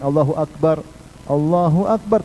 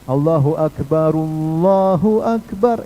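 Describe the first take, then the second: First: The first Akbar ends with a clean stop. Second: The first Akbar links on with an u vowel. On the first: "Kalau mau disam, diberhentikan" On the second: "kalau mau disambung pakai dhamma"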